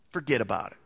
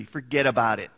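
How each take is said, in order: First: Said in the usual way. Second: A quick New Jersey "Forget about it", said lower and louder; tossing off "Forget about it" like a New Jersey guy; New Jersey accent. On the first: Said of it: "Can't he just say". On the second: Retold or imitated. Preacher playing a New Jersey guy, New Jersey accent. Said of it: "Or from New Jersey".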